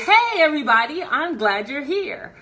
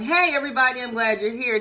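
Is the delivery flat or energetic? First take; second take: energetic; flat. First: It is said with raised energy, smiling. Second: It is said flat, with low energy.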